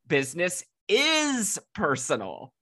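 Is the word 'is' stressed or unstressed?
stressed. The word 'is' is stressed.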